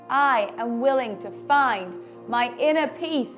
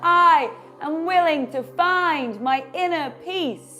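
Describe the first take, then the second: First: It is said at a normal, quieter volume. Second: It is said at a louder volume. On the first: "Say it with me" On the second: "Say it louder"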